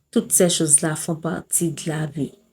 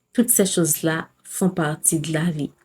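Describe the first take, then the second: No difference in how they are said.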